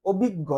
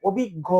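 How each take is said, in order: First: অভিজ্ঞ ending on a held গ্গ with no vowel after it; clipped ending. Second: অভিজ্ঞ said as obhiggo with a short o at the end; final o sound. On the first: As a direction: stop dead on the গ্গ of অভিজ্ঞ. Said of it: "এখানে কিন্তু আমরা থেমে যাচ্ছি". (অভিজ্ঞ শেষে থেমে যাওয়া উচ্চারণ) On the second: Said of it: "শেষে কিন্তু একটা স্বরেও থাকে". (অভিজ্ঞ শেষে ও-ধ্বনি দিয়ে উচ্চারণ) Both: Shown as a demonstration.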